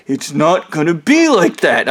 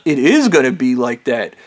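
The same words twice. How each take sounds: First: Imitated insistent denial of "It's not gonna be like that"; acted-out objection, lightly mocking; mock protest. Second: Retold comeback insisting it "is"; teasing contradiction. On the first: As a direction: push back on "not gonna be", mimicking him. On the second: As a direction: stress "is" in calm retort. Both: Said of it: "I started making fun of the dude".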